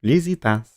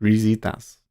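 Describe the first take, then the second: First: Risitas with a French l-like r, lizitas; French-style Risitas. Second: Risitas with an English r, ree-zee-tahs; English-style Risitas. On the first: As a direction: copy the French voice, Risitas as lee-zee-tahs. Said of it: "Risitas (French voice plays)". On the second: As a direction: copy the English voice, Risitas with a hard r. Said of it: "Let's hear a guy say it". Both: Retold or imitated.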